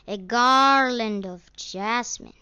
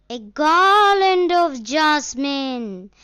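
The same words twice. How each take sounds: First: Lighter echo of the call. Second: Loud, high street-vendor call; seller's shout. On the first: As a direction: call again as the shout fades. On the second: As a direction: belt it out across the fair. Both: A narrator's reading. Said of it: "seller shouted".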